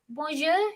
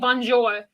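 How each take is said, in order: First: The n sound is left out. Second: The n sound is clearly pronounced. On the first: The speaker calls it right. "I think it's like bonjour. ... you don't say the n in it" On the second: The speaker calls it wrong. "I don't think you say bonjour"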